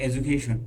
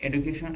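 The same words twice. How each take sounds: First: এডুকেশন said as "ejukeshon", with j and sh sounds; other accent's education. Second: এডুকেশন said as "edukeson", plain d and s sounds; এডুকেশন with a hard d and an s ending; one accent's education. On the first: Teacher shows the other way to say এডুকেশন, as "ejukeshon". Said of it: "আর একটা কেউ বলে এডুকেশন". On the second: Teacher shows one way to say এডুকেশন, as "edukeson". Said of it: "যেমন কেউ বলে এডুকেশন". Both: Shown as a demonstration.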